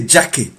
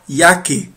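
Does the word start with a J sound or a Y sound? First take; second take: J sound; Y sound. First: The word starts with an English J sound. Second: The word starts with a Y sound. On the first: The speaker calls it wrong. "You don't say jacke" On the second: The speaker calls it right. "You say ya, jacke. Like Y"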